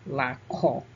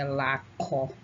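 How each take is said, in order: The two takes are said the same way.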